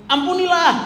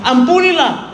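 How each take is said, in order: First: Ampunilah cried out much higher, falling at the end; emphatic command. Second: Ampunilah thrown out much higher and louder, falling; mock pronouncement. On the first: Acted. Preacher proclaiming the verse's command, Ampunilah sharply high. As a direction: ring out Ampunilah as the verse's peak. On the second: Preacher mimicking the verse that stings the hurt, high Ampunilah. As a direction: announce Ampunilah like a ringing verdict. Quoting God's command.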